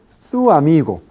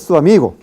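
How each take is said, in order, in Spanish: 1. Dicho despacio, con cuatro sílabas separadas. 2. Las vocales se unen en tres sílabas. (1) "en el habla cuidada lenta" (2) "en el habla rápida informal"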